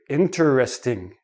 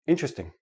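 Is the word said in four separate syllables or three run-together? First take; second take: four; three. First: Each of four syllables is said separately. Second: It is said quickly with three syllables. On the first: The speaker wants to emphasize the word. "They say each syllable separately" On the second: It is ordinary everyday speech. "in everyday speech"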